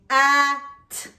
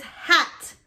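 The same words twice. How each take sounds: First: "At" split into h, a, t with gaps; sound by sound. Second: Said in the usual way. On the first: Shown as a demonstration. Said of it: "to the middle sound". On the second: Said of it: "What's the middle?".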